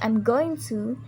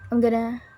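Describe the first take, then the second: First: Every word is said fully and separately. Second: The words are reduced and blended together. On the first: "instead of saying I'm going to" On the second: "I say gonna and wanna instead of going to"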